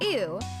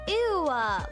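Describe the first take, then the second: First: The word ends plainly with no added sound. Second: The word ends with an added L sound. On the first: "Instead of ew" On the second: "with an L at the end"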